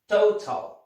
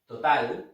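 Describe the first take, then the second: First: The first vowel glides as a diphthong. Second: The first vowel is a plain, pure o. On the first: The speaker calls it right. "In English, here we have a diphthong, O" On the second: The speaker calls it wrong. "Total is in Spanish"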